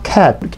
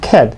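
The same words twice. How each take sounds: First: The final t is released with a puff. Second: The final t is held without release. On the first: The speaker calls it wrong. "cat라고 하시는 것보다는" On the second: The speaker calls it right. "cat 받침을 하시고요"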